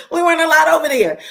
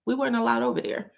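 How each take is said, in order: First: Higher, louder and fast; emphatic loud repeat. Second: Said in the usual way. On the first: Real, not acted. Repeating mother's rule to viewers, loud and emphatic. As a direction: hammer the point home.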